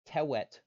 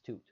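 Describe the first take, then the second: First: It has short, weak E vowels. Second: It has a long oo vowel. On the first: The missing vowels are filled with a default E. "Tewet is a reasonable pronunciation based on this rule" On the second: The W is treated as a U vowel. "we like to approximate W's as U's because it makes it sound nicer as toot"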